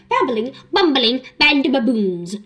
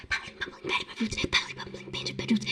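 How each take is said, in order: First: Said in the usual way. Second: Softer, breathy whispered tongue twister; whispering. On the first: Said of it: "I got louder to quote it". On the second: Shown as a demonstration. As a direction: whisper it under your breath. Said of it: "I was whispering it".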